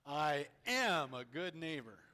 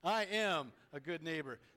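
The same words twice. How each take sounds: First: The word 'am' is strongly emphasized. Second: The word 'am' carries no special emphasis. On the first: "Now we're going to put the emphasis on the word am" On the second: "Say that with me"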